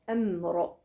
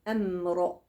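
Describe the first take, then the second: No difference in how they are said.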